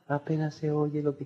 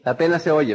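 First: Much softer, mumbled under the breath; barely audible. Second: Said in the usual way. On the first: Shown as a demonstration. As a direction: trail off so they can hardly hear. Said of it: "La persona que no está entusiasmada". (casi inaudible, mucho más suave) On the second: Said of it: "¿qué?".

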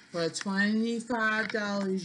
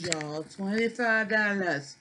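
First: Said in the usual way. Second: "twenty-five dollars" slow and emphatic; slow down and lean on "twenty-five"; stress on twenty-five. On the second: Shown as a demonstration.

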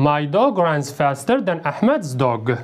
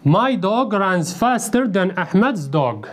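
First: Slow and lower, a careful repeat; slow model sentence. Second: Slow, careful model sentence. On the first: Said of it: "model sentence repeated lower". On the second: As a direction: read it slowly so the class can follow. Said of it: "model sentence read slowly". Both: Shown as a demonstration.

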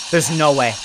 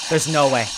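The two takes are said the same way.

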